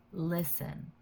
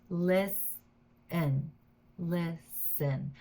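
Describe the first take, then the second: First: Said in the usual way. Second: "Listen" split in two, LIS, pause, EN; syllable by syllable. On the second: Shown as a demonstration. Teacher showing learners the two syllables, split apart. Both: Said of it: "This is two syllables".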